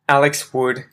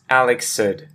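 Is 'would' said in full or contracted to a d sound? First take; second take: Full; Contracted. First: The word would is said in full. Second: Would is reduced to a short ed sound.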